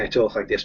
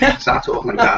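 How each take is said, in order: First: Said in the usual way. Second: Thick Scouse accent, pitched up high. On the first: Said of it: "when I'm talking professionally". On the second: Shown as a demonstration. Showing John his broad Scouse accent, high and thick. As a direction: switch into broad Scouse for the line. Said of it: "when I wanna start talking proper Scouse".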